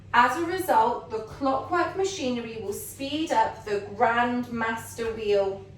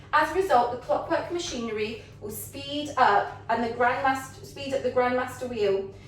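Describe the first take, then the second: Both takes have the same delivery.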